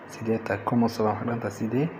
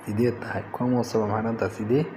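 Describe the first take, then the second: No difference in how they are said.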